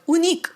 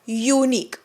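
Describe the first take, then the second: First: The word begins with a plain 'oo' sound. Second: The word begins with a 'yoo' sound. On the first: The speaker calls it wrong. "उनिक असं नाही म्हणत" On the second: The speaker calls it right. "युनिक म्हणतो आपण"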